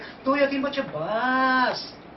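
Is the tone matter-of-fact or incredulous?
incredulous. It sounds incredulous, as if far too few.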